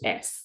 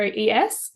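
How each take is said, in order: First: It is said as a single syllable. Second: It is spelled out as two letters. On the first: The speaker calls it right. "but it's pronounced S" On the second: The speaker calls it wrong. "people pronounce it as Studio E S"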